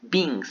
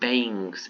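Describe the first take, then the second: First: It is said with the usual English pronunciation. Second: It is sounded out letter by letter. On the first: The speaker calls it right. "that's beings" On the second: The speaker calls it wrong. "not beings"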